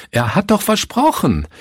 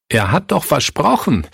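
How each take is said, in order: First: Viel höher, fast aufschreiend; steigernder Verzweiflungsruf. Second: Erhöht, flehend gerufen; verzweifelter Ausruf. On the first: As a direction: die Verzweiflung bricht beim zweiten Mal durch. (deutlich höher, verzweifelt aufschreiend) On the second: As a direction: wie ein gebrochener Pastor, der es nicht fassen kann. (verzweifelt ausgerufen) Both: A narrator's reading. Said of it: "rief Pastor Fritz".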